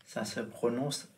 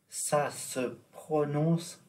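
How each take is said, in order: First: Said in the usual way. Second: Slow, drawn-out Ça se prononce with a lifted prononce; slow teaching voice. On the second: Shown as a demonstration. Teacher slowing down for students, drawn out. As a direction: stretch each syllable of prononce for the learner.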